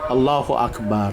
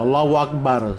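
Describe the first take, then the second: First: It is pronounced without any 'w' sound. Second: It is pronounced with an added 'w' sound. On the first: The speaker calls it right. "pakai alif" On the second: The speaker calls it wrong. "Salah Allahu Akbar. Bukan pakai waw"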